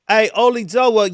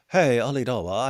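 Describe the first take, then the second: First: It is said in a rough street British accent. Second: It is said in a posh British accent. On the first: The speaker calls it right. "It's more trash" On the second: The speaker calls it wrong. "That's a very sophisticated British accent"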